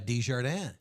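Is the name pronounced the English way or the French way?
French. The name is pronounced the French way. The speaker seems to speak French. "if I pronounce it that way, people think I speak French"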